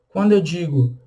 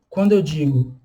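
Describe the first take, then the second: No difference in how they are said.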